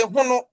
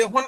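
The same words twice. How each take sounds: First: "hono" with the final o kept; Asante Twi pronunciation. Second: "hon" with the final vowel dropped; Fanti-style "hon", no vowel after the nasal; Fanti pronunciation. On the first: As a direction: say "hono" as two syllables. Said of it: "Asante Twi will say hono". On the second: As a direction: say "hon" ending on the n. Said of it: "Fanti will say hon". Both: Shown as a demonstration.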